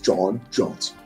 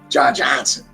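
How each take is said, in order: First: It is said in a put-on deep voice. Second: It is said in the speaker's normal voice.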